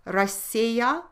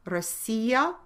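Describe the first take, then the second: No difference in how they are said.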